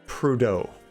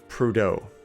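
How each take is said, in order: First: It is said with an American English pronunciation. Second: The same.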